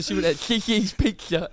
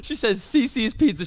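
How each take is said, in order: First: "Cici's Pizza" lisped as "Kihiz Pikshuh"; the S in "Cici's Pizza" turned into a lisped th and k; lisp imitation. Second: Said in the usual way. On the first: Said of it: "This woman had a super bad lisp".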